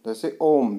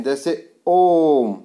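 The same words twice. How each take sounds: First: Said in the usual way. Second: ओम drawn out long over three beats; prolonged om. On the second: Shown as a demonstration. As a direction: stretch ओम slowly like a held chant. (ओम को लंबा खींचकर बोलें) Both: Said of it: "बीच में ये लिखा है ना तीन".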